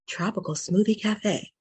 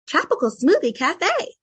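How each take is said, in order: First: A deeper voice resonating low in the belly. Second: A higher, lighter voice resonating in the head. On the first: "get a little bit deeper into your gut or belly voice" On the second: "if I was gonna say Tropical Smoothie Cafe and I was gonna use head voice"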